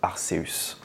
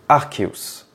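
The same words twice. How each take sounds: First: It does not begin with a hard 'ark' sound. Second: It begins with a hard 'ark' sound, like arc. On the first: The speaker calls it wrong. "j'ai toujours dit Arceus" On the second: The speaker calls it right. "ce Pokémon doit se prononcer Arceus"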